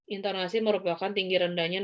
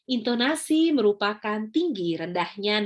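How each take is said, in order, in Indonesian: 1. Nadanya tetap datar dan monoton. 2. Nadanya naik turun sesuai ekspresi. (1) "nggak bisa kita kalau ngomongnya monoton gitu. Misalnya kayak gini" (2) "intonasi atau nada bicara adalah seperti ini"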